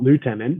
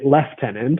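First: It is said the American way, lootenant. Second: It is said the Canadian way, leftenant.

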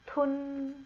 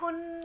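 First: It is said at a lower, dense pitch. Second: It is said at a high pitch.

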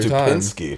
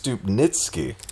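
First: The name is said with a 'pins' sound. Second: The name is said with a 'nits' sound. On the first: The speaker calls it wrong. "we've been pronouncing it wrong" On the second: The speaker calls it right. "it's Stupnitsky"

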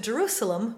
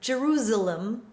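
First: The middle S sounds like a hissing S. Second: The middle S sounds like a buzzing Z. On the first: "Jerusalem with an unvoiced S" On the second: "with a voiced S as Jerusalem"

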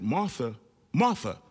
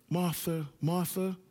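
First: It is said firmly, calling for attention. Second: It is said gently, with compassion.

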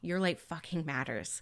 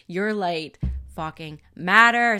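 First: It is said with moderate, plain energy. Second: It is said with stronger, emphatic energy.

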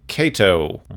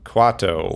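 First: The name begins with a plain k sound. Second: The name begins with a kw sound. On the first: The speaker calls it wrong. "I keep pronouncing it Kato" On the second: The speaker calls it right. "It's Quato"

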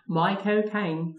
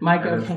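First: It is said in a Cockney accent. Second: It is said in a plain, unaccented voice.

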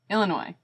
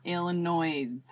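First: The word ends without any S sound. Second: The word ends with an audible S sound. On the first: The speaker calls it right. "No S at the end" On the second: The speaker calls it wrong. "it's not Illinois"

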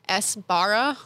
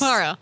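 First: The opening S is fully and clearly pronounced. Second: The opening S is barely audible, almost dropped. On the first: "Because I was getting too into the letters" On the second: "it's a very subtle S where it's just not there. It's almost like an apostrophe"

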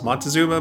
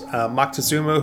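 First: The first syllable ends with an n sound. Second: The first syllable ends with a k sound. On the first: The speaker calls it wrong. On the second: The speaker calls it right.

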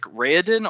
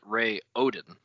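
First: The syllables run together smoothly without breaks. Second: The syllables are separated with small breaks.

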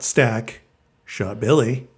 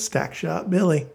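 First: It is phrased as a subject, verb and object. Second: The three words run together as one name. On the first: Someone named Stack shot Billy. The speaker calls it right. "not Stack Shot Billy" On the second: It is a person's nickname. The speaker calls it wrong. "Billy was his nickname was Stack Shot Billy"

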